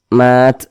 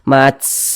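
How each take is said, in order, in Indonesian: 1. Huruf t di akhir diakhiri dengan hembusan nafas ringan. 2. Huruf t di akhir diakhiri dengan desisan kuat dan panjang. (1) "ada udara yang mengalir atau nafas yang mengalir" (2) "nanti desisnya itu berlebihan. Mats, nah, tidak seperti itu"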